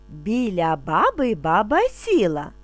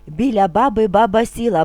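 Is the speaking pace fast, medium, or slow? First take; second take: slow; medium. First: It is spoken calmly at a slow pace. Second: It is spoken at a moderately quicker pace. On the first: "вимовляти спокійно, не спіша" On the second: "трошки швидше"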